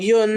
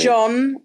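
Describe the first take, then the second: First: The name is said with a Swedish pronunciation. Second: The name is said with an English pronunciation. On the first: "I believe is how it's pronounced in Swedish" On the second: "you could say John"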